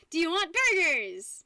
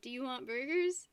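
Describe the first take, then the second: First: "Do you want burgers?" shouted flat like an exclamation; exclamation read. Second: "Do you want burgers?" asked with a rise on "burgers"; plain question, "burgers" lifting at the end; question read. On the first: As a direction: bark "Do you want burgers?" high, loud and slow, falling on "want". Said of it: "I put an exclamation point and not a question mark". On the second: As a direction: ask it normally, rising on "burgers". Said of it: "Instead of". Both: Shown as a demonstration.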